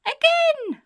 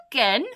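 First: Put-on very high, loud baby squeal; piercing toddler demand; baby shouting. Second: Loud, rising question; taken-aback burglar questioning; incredulous echo. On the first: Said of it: "The baby laughs and shouts". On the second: Acted. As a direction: echo it back in disbelief. Burglar echoes the baby in disbelief.

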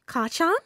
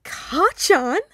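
First: High "Ka-chan?" rising at the end; questioning call. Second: High, loud squeal of delight. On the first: Boy calls out childhood nickname. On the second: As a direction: squeal "Ka-chan?" loudly in glee. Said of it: "Ashido squealed". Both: A narrator's reading.

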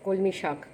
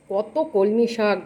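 First: Said in the usual way. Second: কত কলমি শাক drawn out slowly and louder, কলমি stressed; amazed emphasis. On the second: Real, not acted. Amazed at how much কলমি শাক was bought, slow stressed. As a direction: stretch কত কলমি শাক out in wonder. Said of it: "বাপরে বাপ।".

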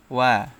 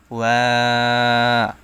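First: Said in the usual way. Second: ওয়া held very long with a falling end; long drawn vowel. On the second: Shown as a demonstration. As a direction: stretch ওয়া out fully. (ওয়া লম্বা টেনে) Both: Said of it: "তিন আলিফ টেনে পড়তে হবে".

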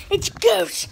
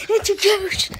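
First: Unvoiced mock-scared whisper. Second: High, loud pretend fright; mock scared shout. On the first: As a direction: breathe it out like a spooked kid. Pretend ghost scare. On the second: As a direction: cry it out in mock panic.

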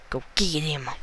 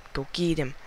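The two takes are said the same way.

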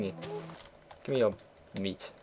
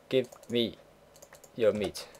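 First: Drawn-out, softer mock menace; slow mock demand. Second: Said in the usual way. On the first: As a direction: stretch each word like a playful threat. Demanding meat from a cow.

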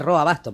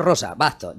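First: "Roa Bastos" with no s in RO-a; correct name demonstrated. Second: Slow "Rosa Bastos" with an s; wrong name demonstrated. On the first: Correcting his partner's reading, instructive "Roa Bastos". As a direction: say "Roa" in two vowels, corrective. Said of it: "es Roa Bastos". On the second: Correcting the reader's slip, deliberately wrong "Rosa Bastos". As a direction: separate "Rosa" and "Bastos" to show the mistake. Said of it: "ya no es lo mismo". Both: Shown as a demonstration.

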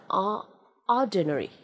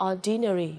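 First: "ordinary" started "o-", then restarted as "OR-duh-nary"; careful "OR-duh-nary" for "ordinary", falling at the end; correct pronunciation. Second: "ordinary" as "or-DEE-nary", clear i in second syllable; wrong pronunciation. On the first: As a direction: model "ordinary" with a weak schwa after the first syllable. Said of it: "phải đọc là". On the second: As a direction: show the mistake: "ordinary" with a "dee". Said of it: "đừng đọc là ordinary là sai". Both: Shown as a demonstration.

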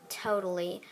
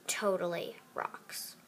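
First: Said in the usual way. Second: Slow, whispered sarcastic totally. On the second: Acted. Mean girl whispering sarcastic praise of the iPad. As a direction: drag out totally as a mocking whisper. Voicing girls' catty phone chat.

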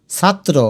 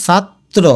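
First: Said in the usual way. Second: ছাত্র as chat, then tro; broken in two. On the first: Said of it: "প্রথমে সাত". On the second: Shown as a demonstration. Teacher shows first chat then tro, ছাত্র split. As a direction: gap between the halves of ছাত্র. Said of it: "প্রথমে সাত, তারপরে ত্র".

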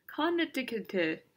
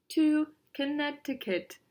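First: "Connecticut" broken up with a full first vowel, con-NET-i-kit; puzzled sounding-out. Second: "Connecticut" said higher, with a silent middle c; careful naming. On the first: Addressing an invitation, "Connecticut" sounded out from a full CON. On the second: Addressing an invitation, "Connecticut" high and careful as kuh-NET-i-kut. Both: Acted.

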